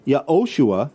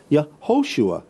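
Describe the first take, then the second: First: "Yehoshua" as ya-OH-shua, no h; "Yehoshua" without breath in the middle; h dropped mid-word. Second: "Yehoshua" as ya-HO-shua, h voiced clearly; "Yehoshua" with air let out mid-word; h sounded mid-word. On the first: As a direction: glide from "Ye" straight into O in "Yehoshua". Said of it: "You could say". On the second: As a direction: break before a breathed HO in "Yehoshua". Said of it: "but you couldn't say". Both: Shown as a demonstration.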